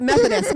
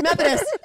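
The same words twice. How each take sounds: First: "Methodist" with a rising high pitch, stressed loudly. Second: "Methodist" pitched much higher, rising at the end; Methodist even higher. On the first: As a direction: lift "Methodist" up and punch it. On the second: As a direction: squeak "Methodist" up high. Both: Shown as a demonstration.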